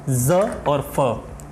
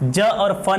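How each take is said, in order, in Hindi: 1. ये व्यंजन संघर्षी z और f हैं। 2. ये व्यंजन सादा j और महाप्राण ph हैं।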